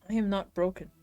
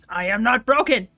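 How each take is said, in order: First: The phrase is said at a quieter volume. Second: The phrase is said at a louder volume.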